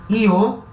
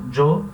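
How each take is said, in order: First: The word starts with an ee-like sound. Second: The word starts with a strong j sound. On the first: This is common in Spain. "Io é mais comum na Espanha" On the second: This is common in Mexico. "Eu sempre falo jo"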